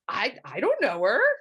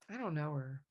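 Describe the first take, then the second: First: It sounds surprised. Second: It sounds sad.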